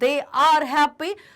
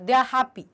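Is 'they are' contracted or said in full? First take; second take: full; contracted. First: 'They are' is said as two full words. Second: 'They are' is contracted into one syllable. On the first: The speaker calls it wrong. "थोड़ा time taking लगा, fluency को थोड़ा interrupt कर" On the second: The speaker calls it right. "ये थोड़ा और अच्छा sound करे"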